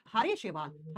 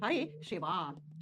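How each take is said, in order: First: Said in the usual way. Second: Slow dictation. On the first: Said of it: "green algae". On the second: Shown as a demonstration.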